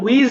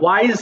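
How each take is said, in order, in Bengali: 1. স্বরধ্বনিটা 'ee' এর মতো শোনায়। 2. স্বরধ্বনিটা 'eye' এর মতো শোনায়। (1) "এটা আবার উইজ বলো না" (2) "ওয়াইজ হবে"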